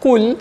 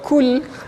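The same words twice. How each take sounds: First: The first consonant is made deep in the throat. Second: The first consonant is a plain front k sound. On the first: It is the word 'say' from the verse. The speaker calls it right. "Kalau qaf kul" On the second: It becomes the word for 'eat'. The speaker calls it wrong. "Kalau kul ka tu jadi makan pula"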